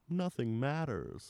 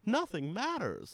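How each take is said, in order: First: It is said in a sad voice. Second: It is said in a happy voice.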